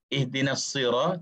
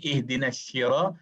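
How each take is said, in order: First: The word begins with a plain s sound. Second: The word begins with a sh sound. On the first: The speaker calls it right. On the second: The speaker calls it wrong.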